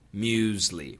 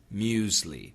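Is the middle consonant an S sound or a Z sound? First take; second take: Z sound; Z sound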